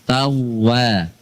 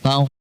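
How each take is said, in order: First: The w sound is held long and doubled. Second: The w sound is short and single. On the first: The speaker calls it right. "wawu tasydid" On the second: The speaker calls it wrong.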